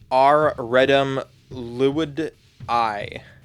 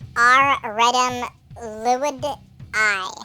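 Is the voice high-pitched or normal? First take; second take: normal; high-pitched. First: It is said in a normal voice. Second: It is said in a high-pitched voice.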